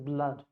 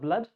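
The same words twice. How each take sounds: First: A clear open vowel sits between the consonants. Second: The vowel is dropped between the consonants. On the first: The speaker calls it right. "this is blood" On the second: The speaker calls it wrong. "this is not blood"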